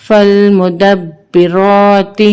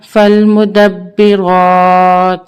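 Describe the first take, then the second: First: فالمدبرات recited with a short final "ti"; full ending, no pause form. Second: فالمدبرات with long held vowel, stopped on bare t; waqf pause form. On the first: Teacher reading on before waqf, فالمدبرات ending in "ti". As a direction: voice the last letter of فالمدبرات as "ti". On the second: Teacher showing waqf, فالمدبرات ending in plain "t". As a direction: stretch the end of فالمدبرات, closing on "t". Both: Shown as a demonstration. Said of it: "وقفاً".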